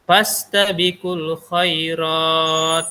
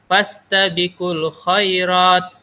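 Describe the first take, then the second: First: The long vowel is held for six beats. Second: The long vowel is held for two beats. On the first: "sampai enam harkat" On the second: "pilihannya boleh dua"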